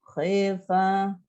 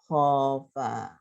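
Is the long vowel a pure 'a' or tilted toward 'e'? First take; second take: tilted e; pure a. First: The long vowel is tilted toward 'e'. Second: The long vowel is an open, pure 'a'.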